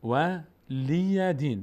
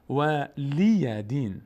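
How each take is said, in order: The two takes are said the same way.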